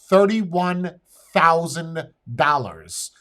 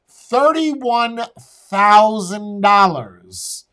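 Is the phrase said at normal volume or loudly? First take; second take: normal; loudly. First: It is said at a normal volume. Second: It is said much louder.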